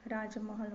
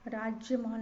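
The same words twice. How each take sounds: First: राजमहल without any y glide; correct pronunciation. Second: राजमहल with a y glide after j; wrong pronunciation. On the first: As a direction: say राजमहल as raaj-mahal, easing off. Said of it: "होता है". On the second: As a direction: say राजमहल as raajya-mahal. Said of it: "नहीं होता". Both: Shown as a demonstration.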